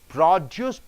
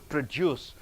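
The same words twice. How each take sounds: First: The stress is on the first syllable. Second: The stress is on the second syllable. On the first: It is a noun meaning produced goods. "There you're stressing on pro" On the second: It is a verb meaning to make something. "So you're stressing on deuce"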